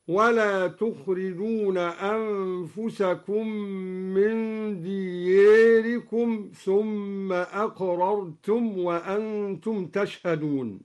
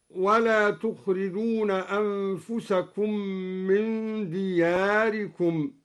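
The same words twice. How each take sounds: First: دياركم with the alif half tilted toward e; taqlil in دياركم. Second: دياركم with a plain open alif. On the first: Teacher demonstrating al-Duri's minor imala. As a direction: lean the alif of دياركم slightly. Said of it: "بتقليل ألف دياركم، هكذا". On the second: Teacher reciting the base reading of دياركم. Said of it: "قرأ الدوري بتقليل ألف دياركم". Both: Shown as a demonstration.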